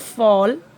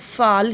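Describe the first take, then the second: First: The vowel is a rounded 'aw' sound. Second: The vowel is an open 'ah' sound. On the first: The speaker calls it right. "लेकिन अगर मैं बोलूँ फॉल तो ऐसे होता है" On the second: The speaker calls it wrong. "जैसे अगर मैं बोलूँ फाल हिंदी में तो वो ऐसे होता है"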